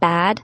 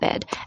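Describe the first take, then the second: First: The vowel is the open vowel of bad. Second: The vowel is the same as in bed.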